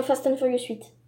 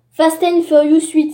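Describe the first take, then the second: First: Said in the usual way. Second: Fast and Furious huit said louder and clearer; louder repeat. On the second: Shown as a demonstration. (répété plus fort et articulé) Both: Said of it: "si vous avez mal compris".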